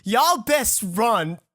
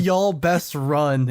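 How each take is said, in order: First: Drawn-out, slow mock warning; slow, grave warning to customers. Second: Very slow, drawn-out echo; slow echo asking for the French; slow repeat. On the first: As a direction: warn the customers slowly and gravely. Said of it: "I tell every other customer". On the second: Retold or imitated. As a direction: repeat it slowly to savor it. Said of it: "What is ... in French?".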